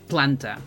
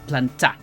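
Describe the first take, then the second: First: The stress is on the first syllable. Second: The stress is on the second syllable. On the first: The speaker calls it right. "the intonation is on this, the first A, because you say planta" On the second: The speaker calls it wrong. "you don't say planta"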